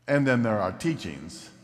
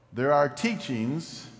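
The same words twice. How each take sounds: First: Teachings leaned on with a falling tune; pointed contrast, teachings falling with weight; weighty teachings. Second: Teachings lifted, left hanging as the first half; ordinary teachings. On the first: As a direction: land teachings firmly as the important kind. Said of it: "This one's important". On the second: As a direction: say teachings with a rising, unfinished tune. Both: Shown as a demonstration.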